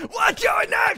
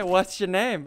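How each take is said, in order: First: Drawn-out, high-pitched holler; stretched high shout at an opponent; excited yell. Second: Said in the usual way. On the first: Real, not acted. Repeats greeting as a shout.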